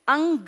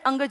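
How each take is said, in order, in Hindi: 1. 'ang' ध्वनि पूरी और लंबी बोली जाती है। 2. 'ang' ध्वनि बहुत छोटी बोली जाती है। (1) "अंग नहीं" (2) "अंग बहुत छोटी सी साउंड है, अंग जैसी"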